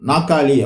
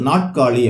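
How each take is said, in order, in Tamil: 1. நடுவில் இரட்டை 'க்' ஒலி. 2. நடுவில் 'ட்' ஒலி, அதன் பின் 'க்' வரும். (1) "நாக்காளி அப்படின்னு சொல்லி சொல்லுவோம் சில இடத்துல" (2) "அதை எழுதும்போது நாட்காலி அப்படின்னு சொல்லி எழுதுவோம்"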